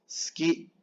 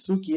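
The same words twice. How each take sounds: First: Suki squeezed to "ski"; long S straight into "ki" in suki; silent U. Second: Suki as two syllables, "su-ki"; fully sounded U. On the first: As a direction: drop the U from suki. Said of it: "La U casi no suena". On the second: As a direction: voice the U in suki clearly. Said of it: "mal, no es suki". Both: Shown as a demonstration.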